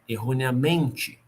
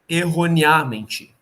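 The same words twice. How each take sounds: First: The stress is on the second-to-last syllable. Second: The stress is on the third-to-last syllable. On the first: "Se ela fosse paroxítona" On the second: "Se ela fosse pela proparoxítona"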